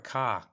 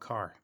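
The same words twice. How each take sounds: First: It is said with a New England accent. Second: It is said with a General American accent.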